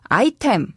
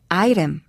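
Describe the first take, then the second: First: The middle consonant is a clear t sound. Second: The middle consonant is a soft flap sound. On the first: The speaker calls it wrong. "영어로 발음할 때 아이템이라고 발음되지 않고요" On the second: The speaker calls it right. "아이램에 가깝게 발음됩니다"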